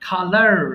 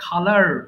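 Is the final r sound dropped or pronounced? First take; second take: pronounced; pronounced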